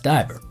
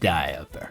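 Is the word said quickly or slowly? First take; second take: quickly; slowly. First: The word is said quickly, the middle syllable squeezed. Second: The word is drawn out with a clear middle syllable. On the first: "I say it really fast" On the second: "That little uh there"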